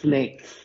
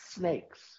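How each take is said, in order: First: The s sounds are lisped, air escaping sideways. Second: The s sounds are clear and centrally hissed. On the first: "I had what they called a lateral lisp, where I'd say snakes" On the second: "just say snakes. And I was cured"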